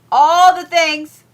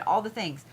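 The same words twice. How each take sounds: First: Higher, louder, slow "All the things"; loud exclaim. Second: Said in the usual way. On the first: Real, not acted. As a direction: belt it out as a playful repeat.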